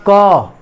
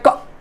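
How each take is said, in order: First: The consonant is followed by a full a vowel. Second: The consonant is cut off abruptly with no vowel. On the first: "ये अ जब पूरा पूरा इसमें जुड़ जाएगा" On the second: "झटके से, यानी यहां पर अ नहीं आया"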